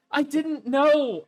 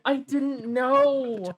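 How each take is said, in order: First: Slow, stunned mock lament; drawn out in fake disbelief; mock dismay. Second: Mock dismay, slower. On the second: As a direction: let it trail off even slower. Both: Mock shock, repeated.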